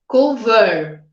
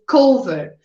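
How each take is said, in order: First: The stress is on the second syllable. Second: The stress is on the first syllable. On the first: The final consonant would be doubled before -ed. The speaker calls it wrong. "Se fosse cover, aí eu dobraria" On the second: The final consonant is not doubled before -ed. The speaker calls it right. "a minha sílaba mais forte está no início"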